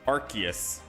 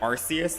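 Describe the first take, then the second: First: The name begins with an 'ark' sound. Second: The name begins with an 'ar-see' sound. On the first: "Like Arc" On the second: "like Arce"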